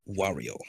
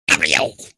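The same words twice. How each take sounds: First: Said in the usual way. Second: Low, loud cartoon villain voice; Wario. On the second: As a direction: drop the pitch and belt it out. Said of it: "It's gonna be Wario".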